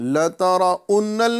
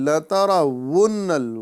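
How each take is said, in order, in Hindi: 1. दूसरा शब्द ग्लॉटल स्टॉप से शुरू होता है। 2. दूसरा शब्द गोल होठों वाली w की आवाज़ से शुरू होता है। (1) "लतरा उन्नल नहीं बोलना है" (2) "बल्कि लतरा वुन्नल"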